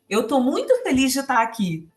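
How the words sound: The voice sounds lively and enthusiastic. The speaker truly is happy to be there. The speaker calls it right. "O som da minha voz está dizendo isso para você"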